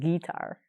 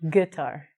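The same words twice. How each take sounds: First: The u after the g is sounded. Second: The u after the g is silent. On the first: The speaker calls it wrong. "not guitar" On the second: The speaker calls it right. "because the U is silent, because of the rule, we say guitar"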